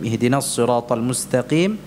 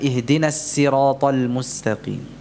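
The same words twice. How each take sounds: First: The s in sirat is thick and heavy. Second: The s in sirat is thin and light. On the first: "mengganti shad ini dengan sin" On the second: "kalau shad dibaca dengan tarqiq jadi sin"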